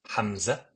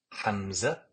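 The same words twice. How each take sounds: The two takes are said the same way.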